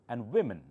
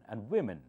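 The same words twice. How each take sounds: The two takes are said the same way.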